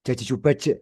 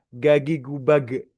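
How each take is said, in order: First: The j is made too far forward, near the teeth. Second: The j is made far back, sounding like g. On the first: It sounds like a Javanese speaker. "Kayak ke orang Jawa gitu kan ya. ... makhrajnya terlalu maju" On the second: It sounds like an Egyptian speaker. "pakai lidah belakang gagi gubage gitu ya seperti orang Mesir"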